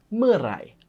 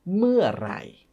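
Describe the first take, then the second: First: The word is said quickly. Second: The word is said slowly and carefully.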